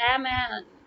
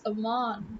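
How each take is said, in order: First: The name is said without a 'u' vowel sound. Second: The name is said with a 'u' vowel sound. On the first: The speaker calls it wrong. "why do you have to say Aman" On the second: The speaker calls it right. "you have the U sound"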